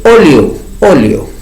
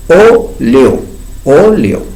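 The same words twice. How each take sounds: First: Said in the usual way. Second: Óleo said clearly as o-le-o; clear model word. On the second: Shown as a demonstration. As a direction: model Óleo cleanly, vowel first. (Óleo pronunciado claramente, o-le-o) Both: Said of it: "Ahí está la vocal O".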